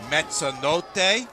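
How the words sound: The name is said with an Italian pronunciation.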